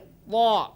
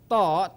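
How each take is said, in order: First: The consonant is said heavy, tongue back raised. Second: The consonant is said light, tongue back flat. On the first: The speaker calls it right. "tapi ta, lebih diangkat lidahnya" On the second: The speaker calls it wrong. "bukan ta"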